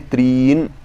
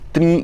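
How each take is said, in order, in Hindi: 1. tr के बाद का स्वर दीर्घ है। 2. tr के बाद का स्वर ह्रस्व है। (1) "इस तरह से हमें यहाँ पर पाठ करना चाहिए" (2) "हम त्रि ऐसे कर देते हैं"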